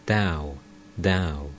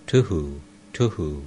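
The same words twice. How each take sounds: First: Said in the usual way. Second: Low, thumping machine hum; carding machine sound. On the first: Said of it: "that is". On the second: A narrator's reading. Narrator voicing the machine's sound, mild low hum. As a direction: imitate the twang of a carding bow, lightly. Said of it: "the machine makes the sound".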